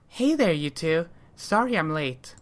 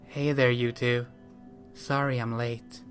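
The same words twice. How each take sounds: First: It is said in a lively, energetic voice. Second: It is said in a flat, tired voice.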